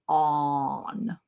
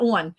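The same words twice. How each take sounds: First: It is said in a Texan accent. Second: It is said in a northern US accent.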